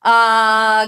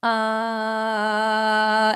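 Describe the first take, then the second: First: Long, loud, supported "uh"; big loud "uh". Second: Long, easy, steady "uh"; taken-down "uh". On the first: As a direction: give a big held sound without screaming. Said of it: "give that really big, loud sound". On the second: Coach easing a too-rough voice, gently held "uh". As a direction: hold the sound gently, without force. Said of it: "I'm gonna take it down". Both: Shown as a demonstration.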